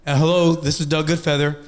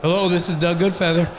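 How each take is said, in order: First: Lightly put-on formal phone voice; a hint of a businesslike caller; professional voice. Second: Lightly voiced man answering the phone; a hint of a phone answerer; answerer's voice. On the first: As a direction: sound polished on the phone. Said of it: "use my professional voice". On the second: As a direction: answer the call plainly. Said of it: "it's gonna say beep".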